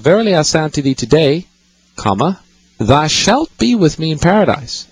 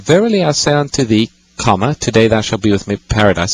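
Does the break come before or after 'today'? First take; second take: after; before. First: The break comes after the word today. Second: The break comes before the word today.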